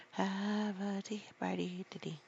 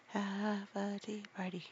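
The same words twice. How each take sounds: First: Whispered take. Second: Said in the usual way. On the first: Shown as a demonstration.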